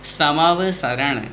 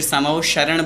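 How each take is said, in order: First: It is said with a plain 's' sound. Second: It is said with an 'sh' sound. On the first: The speaker calls it right. "दोनों स ... सड़क वाले हैं" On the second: The speaker calls it wrong. "अक्सर हमारे मुख से अशुद्ध उच्चारण हो जाता है"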